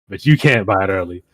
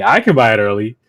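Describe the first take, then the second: First: You puesto en relieve frente a I; stress on you. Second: I puesto en relieve frente a you; stress on I. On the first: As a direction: golpea la palabra you para contrastar. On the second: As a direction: carga la voz en la palabra I, contrastando con you. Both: Retold or imitated. Teasing customers about early sales.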